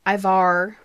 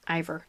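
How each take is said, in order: First: Ivar said as "EYE-var" with a clear ar; Ivar, fixing the vowel; corrected name. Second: Ivor said as "EYE-ver"; wrong name. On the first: Fixing the Viking name after a slip. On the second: Correcting herself from Ivor. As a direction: Ivor with a soft unstressed end. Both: Shown as a demonstration.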